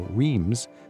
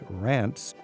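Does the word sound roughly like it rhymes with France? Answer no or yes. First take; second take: no; yes. First: It is read as spelled, not rhyming with France. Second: It is said the French way, rhyming with France. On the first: The speaker calls it wrong. "The average traveler would look at that and go" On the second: The speaker calls it right. "but it's Reims"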